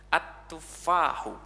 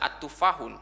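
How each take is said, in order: First: The word ends on a vowel without n. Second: The word ends with an added n sound. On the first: The speaker calls it right. "At-tufahu. Ya, at-tufahu" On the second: The speaker calls it wrong. "kalau ada alif lam jangan dibaca at-tufahun"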